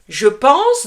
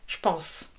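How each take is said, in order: First: The e of je is fully pronounced. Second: The e of je is dropped.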